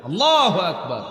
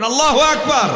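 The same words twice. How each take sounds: First: Said in the usual way. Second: "আল্লাহু আকবার" high and very loud; rally the crowd to answer; loud call. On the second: Real, not acted. Preacher urging the crowd to shout the takbir. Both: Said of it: "বলেন".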